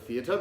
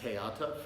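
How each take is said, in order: First: The word begins with a th sound. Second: The word begins with a plain t sound.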